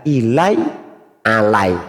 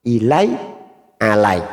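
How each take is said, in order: No difference in how they are said.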